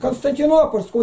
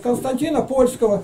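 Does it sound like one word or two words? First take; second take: one word; two words. First: It is said as one single long word. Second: It is split into two separately stressed words. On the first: The title refers to the city of Constantinople. The speaker calls it right. "Константинопольского, ударение на вон" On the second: The title seems to refer to Poland. The speaker calls it wrong. "ударение делает не там"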